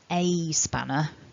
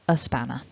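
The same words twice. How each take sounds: First: The article 'a' has a full, strong vowel. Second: The article 'a' is reduced to a weak schwa. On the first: The speaker calls it wrong. "I wouldn't say a spanner, that would be a bit too much" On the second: The speaker calls it right. "It's easier to say"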